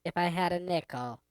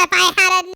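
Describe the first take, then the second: First: Lightly altered female effect voice. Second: High voice effect. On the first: Trying out the soundboard's woman setting, female voice effect. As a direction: speak through a female voice setting. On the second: Voice setting before the soundboard switches. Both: Pretend.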